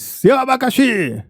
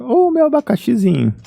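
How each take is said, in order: First: It is said in a harsh, insulting tone. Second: It is said in a warm, affectionate tone.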